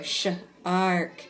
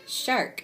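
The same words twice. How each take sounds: First: "sh-" then "ark", louder and separate; broken into sounds. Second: "shark" in one piece, higher; blended whole word. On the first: Teacher echoing pupil's decoding, in parts. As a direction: split off "sh-" before a firm "ark". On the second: Teacher echoing pupil's success, blended whole word. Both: Retold or imitated. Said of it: "I heard you go".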